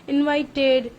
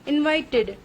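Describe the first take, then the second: Both takes have the same delivery.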